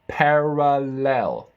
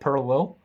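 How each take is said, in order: First: The vowels are open, full and clear. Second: The vowels are closed and mumbled. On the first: The speaker calls it right. "look at my mouth. Parallel. I'm opening my mouth" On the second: The speaker calls it wrong. "Otherwise, it can be like parallel"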